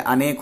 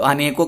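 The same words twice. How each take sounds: First: अनेक said cleanly, no plural ending; correct form. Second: अनेकों said as a plain spoken plural, the ending ों held; wrong form. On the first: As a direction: stress the right word अनेक, plain and firm. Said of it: "अनेक होता है". (सही रूप अनेक) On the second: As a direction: quote the common mistake अनेकों. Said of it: "अनेकों कभी नहीं होता है". (गलत रूप अनेकों) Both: Shown as a demonstration.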